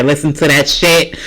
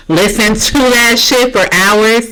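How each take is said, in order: First: Said in the usual way. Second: Higher, slow, drawn-out exasperation; worked-up yelling. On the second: Real, not acted. Venting about screaming kids for hours, worked-up and drawn out. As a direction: stretch it out with pent-up passion. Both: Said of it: "Sorry, I'm yelling".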